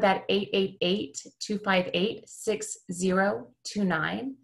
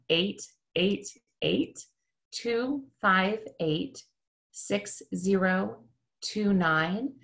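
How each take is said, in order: First: The number is read at a quicker pace. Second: The number is read at a slower pace.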